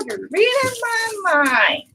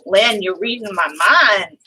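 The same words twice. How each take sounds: First: High, slow sing-song. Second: Said in the usual way. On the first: Real, not acted. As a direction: stretch it out high and singing. Repeats the remark, sung out.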